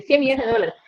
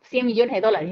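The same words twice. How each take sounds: First: "cien millones de dólares" hit hard and a touch louder on "cien"; stress on cien millones. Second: Said in the usual way. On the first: Shown as a demonstration. Correcting "cien mil" to listeners, stressing "cien millones". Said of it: "Yo no dije cien mil, dije". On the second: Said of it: "Yo no dije cien mil".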